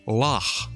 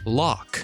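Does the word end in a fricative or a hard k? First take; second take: fricative; k. First: The final sound is a throaty fricative. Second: The final sound is a hard k. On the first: The speaker calls it right. "when it should be" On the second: The speaker calls it wrong. "Loch when it should be"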